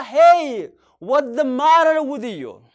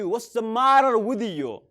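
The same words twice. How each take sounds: First: Loud, slow, Hey called out; loud concerned call. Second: Slow and even; slow model phrase. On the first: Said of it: "maal ta'e gaafatta?". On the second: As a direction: model it slowly. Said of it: "Or you can say". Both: Shown as a demonstration.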